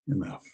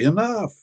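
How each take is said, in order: First: It is said softly, with a satisfied sigh. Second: It is said firmly, as a sharp scolding command. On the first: I am full and satisfied. "When you're happy and content and full" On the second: Stop that behavior now. "When somebody's talking too much or carrying on too much"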